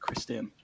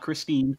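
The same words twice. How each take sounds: First: The name sounds like Kristen, stressed at the start. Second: The name sounds like Christine, stressed at the end. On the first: The speaker calls it right. "there was an actual pronunciation of his name" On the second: The speaker calls it wrong. "not Christine"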